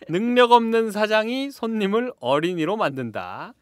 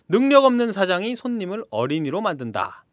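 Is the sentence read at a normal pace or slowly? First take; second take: slowly; normal. First: It is read slowly and deliberately. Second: It is read at a normal speaking pace.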